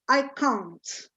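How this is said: It is said with a British accent. "British English would be I can, I can't"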